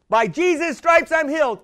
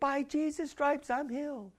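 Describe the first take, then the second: First: The phrase is said loudly and strongly. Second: The phrase is said quietly and weakly. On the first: Faith is growing stronger than the sickness. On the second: Faith is still weak and hesitant.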